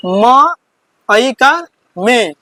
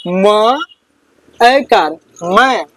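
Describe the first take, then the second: First: "म", "ऐकार", then "में", each slowly drawn out; teacher slowly building "में" from "म" and its vowel sign; spelling out syllable. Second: "म", "ऐकार", then "मैं", each slowly drawn out; teacher slowly building "मैं" from "म" and its vowel sign; spelling out syllable. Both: Shown as a demonstration. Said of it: "इसको पढ़ेंगे".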